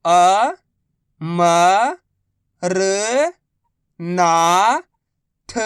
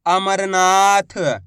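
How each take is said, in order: First: Very slow, each syllable drawn out. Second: Said in the usual way. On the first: Shown as a demonstration. Teacher sounding out a word for pupils, slow syllables. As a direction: spell the word out slowly for a child. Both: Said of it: "मैं किस तरीके से".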